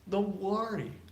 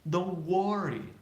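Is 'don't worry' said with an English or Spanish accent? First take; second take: Spanish; Spanish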